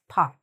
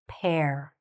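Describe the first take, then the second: First: The vowel sounds like "ah" with no r. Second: The vowel sounds like "air" in hair. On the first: The speaker calls it wrong. "It's sometimes said as pa" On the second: The speaker calls it right. "but we want to say what?"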